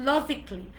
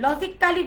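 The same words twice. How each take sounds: First: "logically" as LO-jik-lee; "logically" squeezed to logic-lee; corrected pronunciation. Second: "logically" with a full "kaa-lee" ending; Bangla-style "logically", four full syllables; common mispronunciation. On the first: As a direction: say logically in three syllables, no "kaa". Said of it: "it's logically". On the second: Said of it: "logically বলি". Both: Shown as a demonstration.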